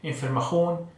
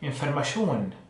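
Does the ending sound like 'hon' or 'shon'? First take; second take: hon; shon. First: The ending is said like 'hon', southern style. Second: The ending is said like 'shon', northern style.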